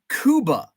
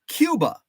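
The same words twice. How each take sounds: First: It uses the Spanish-like 'coo' vowel sound. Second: It uses the English 'cue' vowel sound. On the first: This is how the town's name is said locally. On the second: This is the expected reading of the spelling.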